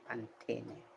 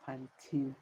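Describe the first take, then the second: First: Pantene as pan-TEH-neh, every letter sounded; Spanish pronunciation. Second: Put-on Pantene as pan-TEEN; English pronunciation. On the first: Explaining to viewers how Spanish says Pantene, every letter sounded. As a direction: pronounce the last e of Pantene. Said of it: "we pronounce every letter of the word". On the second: Explaining to viewers what English calls it, Pantene as pan-teen. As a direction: drop the last e of Pantene, English style. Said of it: "In English, we call it". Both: Shown as a demonstration.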